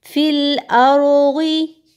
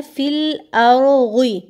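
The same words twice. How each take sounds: First: Very slow चant with फिल अरोगी heavy and full; correct heavy reading. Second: Slow फिल अरोगी with light, thin letters; students' thin reading. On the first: Teacher models the correct heavy letters. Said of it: "अब यहाँ आप क्या गलती करते हैं". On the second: Teacher imitates students reading the letters thin. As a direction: read अरोगी thin, as the mistake. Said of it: "गौद को आप मोटा नहीं करते". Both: Shown as a demonstration.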